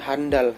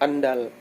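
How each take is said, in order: First: The word begins with an h sound. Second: The word begins directly with a vowel. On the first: The speaker calls it wrong. "Yang salah itu dia sangat handal" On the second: The speaker calls it right. "Yang kata baku itu andal"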